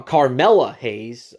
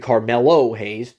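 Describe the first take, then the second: First: "Carmella Hayes" said slowly, with "Carmella" like the woman's name; misspelled name read out. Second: "Carmelo Hayes" with the ending "-lo", as the name should be; corrected name. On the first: Reading the misspelled wrestler name off the list, slow. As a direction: read out "Carmella Hayes" as it was wrongly spelt, Car-MEL-la. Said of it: "I don't know why they spelt it like that". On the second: Correcting the misspelled name for viewers, plainly. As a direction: put it right: "Carmelo Hayes", Car-MEL-o. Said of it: "It's supposed to be Carmelo Hayes".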